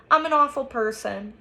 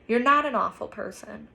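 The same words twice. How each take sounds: First: Higher, louder, mildly tearful; through tears. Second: Mild, gentle reassurance; soft. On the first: Olivia blaming herself to Justin, understated tearful voice. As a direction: confess with a touch of tears. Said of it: "she says through her tears". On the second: Justin comforting crying Olivia, understated soft reassurance. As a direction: reassure with a touch of softness. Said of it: "I say softly". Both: A narrator's reading.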